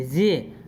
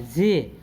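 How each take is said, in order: First: जे with a ज and झ blend, a breathy J; corrected sound. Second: Put-on जे said the old way, a plain English J; the usual Indian जे before the fix; wrong way. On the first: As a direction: say जे mixing ज and झ. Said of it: "ज और झ का sound मिला देंगे". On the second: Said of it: "जे नहीं बोलेंगे". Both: Shown as a demonstration.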